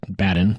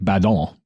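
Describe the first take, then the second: First: The name is said with an American pronunciation. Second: The name is said with a French pronunciation. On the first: "we're Americans, so we pronounce it" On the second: "since he was French, it was probably like"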